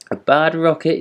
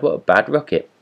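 First: High, outraged disbelief; indignant shock. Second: Higher, scornful exclamation; scornful workman. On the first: Rocket thrown into the ditch, indignant high echo. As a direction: repeat the insult in disbelief. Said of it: "he said as he whirled through the air". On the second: Workman spotting the damp rocket, scornful cry. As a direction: sneer at the soggy rocket. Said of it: "he cried". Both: A narrator's reading.

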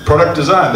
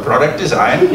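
First: Said in the usual way. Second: A light, lower mock German accent on Product design. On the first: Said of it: "That was an accent". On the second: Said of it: "That was an accent, say as well".

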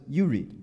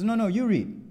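First: Imitated teacher's short order, slightly raised; firm instruction. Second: High, louder mock protest; exasperated insistence. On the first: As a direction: hand the task back firmly. Teacher's order in retold exchange. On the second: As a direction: imitate a student refusing, pitch leaping up. Student's escalating refusal, retold.

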